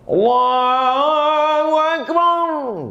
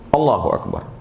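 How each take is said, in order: First: It is drawn out long. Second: It is said short and quick.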